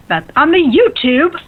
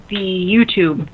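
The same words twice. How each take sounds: First: High, slow goofy voice; silly voice. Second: Said in the usual way. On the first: Shown as a demonstration. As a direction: ham up the words. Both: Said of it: "I can't even talk".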